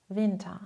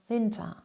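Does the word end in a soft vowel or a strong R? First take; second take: soft vowel; soft vowel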